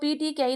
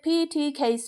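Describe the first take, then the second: First: The consonants are said without a puff of air. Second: The consonants are said with a strong puff of air. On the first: The speaker calls it wrong. "पी टी के ना कहकर" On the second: The speaker calls it right. "पी टी के stress देकर बोलते हैं"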